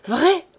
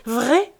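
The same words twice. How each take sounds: First: High, loud rising "Vrai?"; thrilled wife asking her husband for the news; excited cry. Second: Second "Vrai?", rising but less high; eager wife repeating her question; excited cry. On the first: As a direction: cry out in joyful disbelief. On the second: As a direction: ask again, still thrilled. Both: Acted. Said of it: "cria-t-elle".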